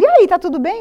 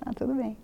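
First: High, loud, bright greeting; cheery asking friends. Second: Soft, faint hidden-worry answer; forced reassurance. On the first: Friends asking the pregnant woman, high and bright. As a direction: voice everyone's breezy question. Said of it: "E todo mundo". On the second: Woman hiding bad news from friends, soft and forced. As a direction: mask the fear behind a quiet yes. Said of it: "Não podia falar nada". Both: Retold or imitated.

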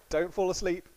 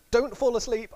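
First: Said in the usual way. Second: Urgent warning. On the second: Retold or imitated. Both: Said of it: "and says to them".

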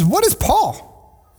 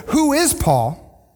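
First: "What" hit high and slow in "What is Paul?"; stress on what. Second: Slow, higher "Who is Paul?" leaning on "Who"; stress on who. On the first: Pastor quoting Paul's true question, slow stress on "What". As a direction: drag out "What is Paul?" punching "What". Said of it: "He says". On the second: Pastor contrasting Paul's question, slow stress on "Who". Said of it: "He says, What is Paul". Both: Shown as a demonstration.

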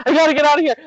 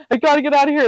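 First: High, urgent, panicked; panicked yelling. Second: High, urgent, panicked repeat; panicked yelling. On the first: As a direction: blurt it like you need out right now. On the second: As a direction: say it again just as desperate. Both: Retold or imitated. Begging husband to let her out, high panicked urgency. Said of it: "I'm, like, yelling, freaking out".

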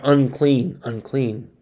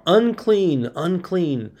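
First: Said in the usual way. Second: A mild mock call of "Unclean, unclean", the first "Unclean" pitched higher; crying out. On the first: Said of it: "they didn't cry out". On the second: Pastor voices lepers warning people approaching them, in a mild mock call. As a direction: call out "Unclean" like a leper warning passers-by, then let the second drop. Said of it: "they were required to cry out".

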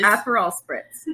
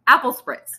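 First: "Aperol spritz" with Aperol in three clear syllables; correct pronunciation. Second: "Apple spritz", Aperol shrunk to two syllables; mimicked mispronunciation. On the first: Shown as a demonstration. Correcting a friend's order, clearly pronounced Aperol. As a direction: say "Aperol" as AP-er-ol, not apple. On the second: Mocking a friend's pronunciation, Aperol said as apple. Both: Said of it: "if she's saying Aperol or apple".

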